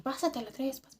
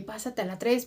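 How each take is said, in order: First: Soft, hushed imitation of the call; low-volume radio message. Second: Said in the usual way. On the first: Coworker radioing Omar to move over, said softly. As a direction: keep it down, as if secretly radioing. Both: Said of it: "pero así bajito".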